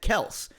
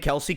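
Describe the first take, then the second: First: The name is said as one short syllable. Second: The name is said with two syllables. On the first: This is how the family says their own name. The speaker calls it right. "They, as a family, pronounce it Kels" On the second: This is how announcers and the public say it. The speaker calls it wrong. "Kelce comes off the tongue better"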